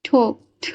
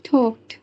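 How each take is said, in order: The two takes are said the same way.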